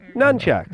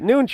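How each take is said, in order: First: The first syllable has the vowel of 'nun'. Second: The first syllable has the vowel of 'noon'. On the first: The word is read from its spelling. "you see N U N, and you say nunchucks" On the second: The word was only ever heard, never seen written. "I always just pronounce it noonchuck"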